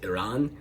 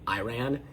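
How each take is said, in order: First: The first vowel sounds like 'ee'. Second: The first vowel sounds like 'eye'. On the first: The speaker calls it right. "the proper pronunciation is Iran" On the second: The speaker calls it wrong. "and not Iran"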